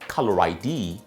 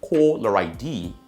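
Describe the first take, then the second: First: It is said in a General American accent. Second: It is said in a British BBC accent. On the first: "In G A English, caller I D is pronounced as" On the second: "But B B C"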